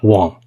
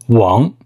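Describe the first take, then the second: First: The name is said in an anglicized way. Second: The name is said in a Mandarin-like way. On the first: The speaker calls it wrong. "not Wang" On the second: The speaker calls it right. "It's Wang"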